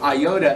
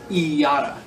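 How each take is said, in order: First: The first vowel is not an 'ee' sound. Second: The first vowel is an 'ee' sound. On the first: The speaker calls it wrong. "instead of iota" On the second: The speaker calls it right. "the short I makes the sound of E"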